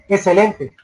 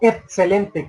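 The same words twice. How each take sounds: First: The x is pronounced poorly, not fully. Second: The x is pronounced with a t sound. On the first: "no pronuncian bien las X" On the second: "excelente con T"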